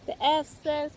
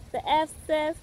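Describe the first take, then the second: No difference in how they are said.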